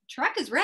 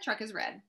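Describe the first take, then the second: First: The voice rises at the end like a question. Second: The voice falls at the end like a statement. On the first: It is a question. "would you put it with a question mark?" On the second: It is a statement. "I'm going to say that one with just a statement"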